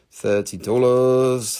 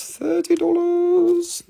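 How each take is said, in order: First: Said in the usual way. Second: Sung, much higher, slow sing-song call; sung, playful sing-song sales call; sung price. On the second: Acted. Announcing the price twice.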